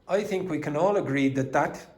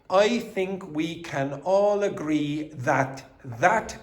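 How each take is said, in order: First: The first 'that' is reduced and weak. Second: The first 'that' is full and strong. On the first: The speaker calls it right. "We say" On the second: The speaker calls it wrong. "it is not common for English speakers to say"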